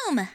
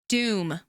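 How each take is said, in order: First: It is said in a cute voice. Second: It is said in a serious voice.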